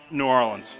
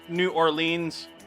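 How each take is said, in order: First: It is said the way locals usually say it. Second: It is said the way outsiders usually say it. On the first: "but New Orleans" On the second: "as other people pronounce it"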